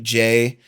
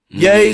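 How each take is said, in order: First: The name begins with a firm J sound. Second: The name begins with a soft Y sound. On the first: "just like Jay" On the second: "if you kind of do like a relaxed kind of J"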